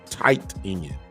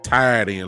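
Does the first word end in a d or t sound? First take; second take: t; d. First: The first word ends with a t sound. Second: The first word ends with a d sound. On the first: It is the standard form of the term. The speaker calls it right. "It's a tight end" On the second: It reflects the speaker's country Southern speech. The speaker calls it wrong. "I say a tied tied end like a T I E D. I'm country"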